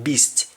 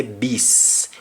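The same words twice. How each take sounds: First: Said in the usual way. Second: "beast" ending on a long S, no T; drawn-out "beast" with the T silent; T dropped. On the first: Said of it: "we don't pronounce the T". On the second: Shown as a demonstration. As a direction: Jamaican "beast", last T left off. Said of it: "we don't pronounce the T at the end".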